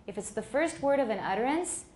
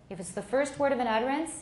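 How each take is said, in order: No difference in how they are said.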